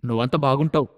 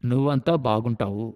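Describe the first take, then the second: First: It is said in a bitter, sarcastic tone. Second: It is said in a warm, comforting tone. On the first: The listener is being reproached for stealing the money. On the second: The listener is being reassured that things will go well.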